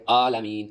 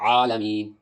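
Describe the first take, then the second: First: "عالمین" opening on a plain long aa, no ع; ع replaced by alif. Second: "عالمین" opening on a throaty ع; correct ع. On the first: Teacher shows the careless reading, alif for ع. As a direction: say "عالمین" as if spelt aalameen with alif. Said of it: "الف کے ساتھ پڑھ دیتے". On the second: Teacher models the right reading, pharyngeal ع. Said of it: "عین نکال کر پڑھے". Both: Shown as a demonstration.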